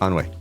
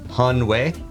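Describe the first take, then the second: First: The word starts with no h sound. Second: The word starts with a clear h sound. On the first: "We just don't pronounce the ha" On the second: "It is Hanwei"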